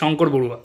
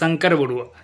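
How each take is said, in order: First: The name is said with a Bengali accent. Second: The name is said with a Hindi accent. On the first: "কিন্তু এখানে হচ্ছে" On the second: "হিন্দিতে শঙ্কর বড়ুয়া"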